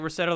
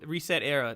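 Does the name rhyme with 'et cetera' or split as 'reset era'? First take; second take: et cetera; reset era. First: It is run together, rhyming with et cetera. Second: It is split into reset plus era. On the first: "like et cetera" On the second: "I need to say it wrong"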